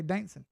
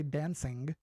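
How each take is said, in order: First: "dancing" as dancin', g dropped; Southern pronunciation. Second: "dancing" with a full -ing ending; non-Southern pronunciation. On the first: Trader shows how the South says it, "dancing" as dancin'. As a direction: say "dancing" Southern-style, ending in -in. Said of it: "We say dancing". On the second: Trader shows what Southerners don't say, "dancing" with full -ing. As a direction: enunciate "dancing" carefully, ringing g ending. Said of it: "We don't say dancing". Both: Shown as a demonstration.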